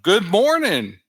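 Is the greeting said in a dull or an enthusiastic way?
enthusiastic. It is said warmly, with lively energy. The speaker is glad to see everyone. The speaker calls it right. "no, no, good morning"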